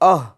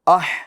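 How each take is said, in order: First: The h is a plain, light breathy sound. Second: The h is a raspy sound from mid-throat. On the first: The speaker calls it wrong. "इस तरह नहीं, ये दो चश्मे वाली हा की आवाज़ हुई, ये गलत है" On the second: The speaker calls it right. "बड़ी हा अदा करेंगे दरमियान हल्क से"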